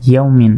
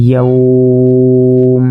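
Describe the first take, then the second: First: Said in the usual way. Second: ইয়াউম held long, "yauuu-m"; sustained ইয়াউম closing on m; stretched pausal form. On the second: Shown as a demonstration. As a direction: draw out the glide in ইয়াউম on one note. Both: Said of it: "ওয়াকফ করলে".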